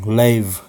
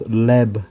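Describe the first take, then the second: First: The word sounds like 'lave', with a long vowel. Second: The word sounds like 'leb', with a short vowel. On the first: The speaker calls it right. "let me play the proper pronunciation" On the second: The speaker calls it wrong. "I said it wrong"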